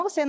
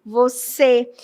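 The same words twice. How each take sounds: First: VOCÊ mispronounced with an open final "é"; deliberately wrong open-ended "você"; wrongly open E. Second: VOCÊ with a closed, inward final ê. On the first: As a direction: open the last vowel of "você" to eh, like "vocé". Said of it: "Você não fala com o som aberto". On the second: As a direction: say "Você" as if drawing the ê inside. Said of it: "como se fosse para dentro". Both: Shown as a demonstration.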